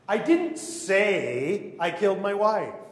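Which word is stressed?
say. The word "say" is stressed.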